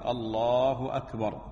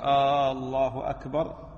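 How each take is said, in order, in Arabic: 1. تُنطَق قصيرة ولا تُمَدّ فيها الحركة. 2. الحركة الأولى من الله تُمَدّ مدًّا طويلًا. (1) "من السنة الحذف وعدم التمطيط في التكبير، يقول الله أكبر" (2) "فبعضهم يمد ألف الله أو همزة الله فيقول الله أكبر"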